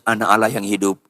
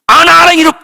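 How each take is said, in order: First: It sounds doubtful, like a question. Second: It sounds firm, like an exclamation.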